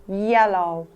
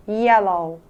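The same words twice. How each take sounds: The two takes are said the same way.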